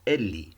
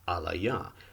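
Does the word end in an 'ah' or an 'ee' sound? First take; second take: ee; ah. First: The word ends in an 'ee' sound. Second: The word ends in an 'ah' sound. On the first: "that would capture that we think it's ca- it's pronounced Eli" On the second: "that would convey that they think it's pronounced Alaya"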